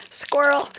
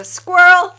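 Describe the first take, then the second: First: Said in the usual way. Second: Loud, slow, high squirrel shout; drawn-out squirrel call. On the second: Pretend. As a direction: stretch out squirrel loudly and high. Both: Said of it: "we should make that a drinking game".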